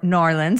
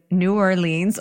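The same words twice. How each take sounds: First: It is pronounced the way locals say it. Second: It is pronounced the common non-local way. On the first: The speaker calls it right. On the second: The speaker calls it wrong.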